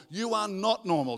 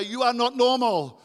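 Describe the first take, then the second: First: Said in the usual way. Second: Louder, higher proclamation; emphatic declaration. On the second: Shown as a demonstration. Preacher has congregation tell the person beside them, emphatic declaration. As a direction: call it out for everyone to repeat. Modelling what to tell your neighbour.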